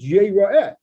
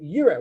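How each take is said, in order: First: The word ends with an added 'eh' syllable. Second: The word ends on an 'ah' sound. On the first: He shall be seen. The speaker calls it right. "we pronounce it yira'eh" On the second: A person will see. The speaker calls it wrong. "which normally would read yira"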